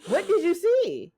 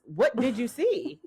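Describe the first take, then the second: First: Higher, slow, disbelieving what did you see; incredulous repeat. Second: Incredulous. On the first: Friend asking Mariah in disbelief, high and slow. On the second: Repeating question mockingly. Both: Real, not acted.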